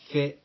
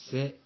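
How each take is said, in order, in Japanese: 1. th の音で始まります。舌を歯の間に入れます。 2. 普通の s の音で始まります。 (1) "英語のTH の発音のように" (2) "エセと同じように日本語の発音で"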